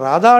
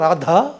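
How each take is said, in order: First: The middle consonant is said without aspiration. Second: The middle consonant is said with aspiration. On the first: This is how an uneducated character speaks. "ఆడు రాధా అంటాడు" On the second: This is how an educated speaker says it. "తప్ప రాధా అని అంట కదండి"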